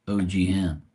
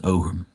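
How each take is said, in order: First: "O G Ham" said as letters O, G, then "ham"; mistaken pronunciation. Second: "Ogham" said as OH-gum, two syllables; corrected pronunciation. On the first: Real, not acted. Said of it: "So I was totally wrong". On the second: Shown as a demonstration. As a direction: say "Ogham" as OH-gum, stress first. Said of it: "it's pronounced Ogham".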